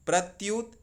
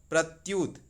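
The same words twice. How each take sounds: The two takes are said the same way.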